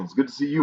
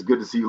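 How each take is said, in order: First: "you" lifted higher; higher, rising "you"; stress on YOU. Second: Said in the usual way. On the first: Real, not acted. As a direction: turn the greeting back with weight on "you". Returns the viewer's greeting.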